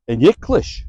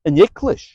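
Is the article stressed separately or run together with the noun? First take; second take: run together; run together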